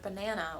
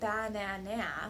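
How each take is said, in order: First: The stress is on the middle syllable. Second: All three syllables are stressed equally. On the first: The speaker calls it right. "with the proper stress placement by saying the middle syllable a little bit longer" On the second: The speaker calls it wrong. "That would be stressing all three syllables"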